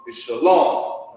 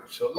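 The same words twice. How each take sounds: First: Shalom said slowly, stress on the end: sha-LOM; shalom, slow demo. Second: Said in the usual way. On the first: Shown as a demonstration. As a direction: spell out shalom slowly and clearly. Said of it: "the salute goes as this". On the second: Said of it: "let's just get that".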